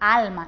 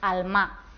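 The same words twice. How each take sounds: First: The stress is on the first syllable. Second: The stress is on the last syllable. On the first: The speaker calls it right. "Decimos alma" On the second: The speaker calls it wrong. "no decimos alma"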